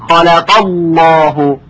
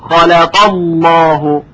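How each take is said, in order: The two takes are said the same way.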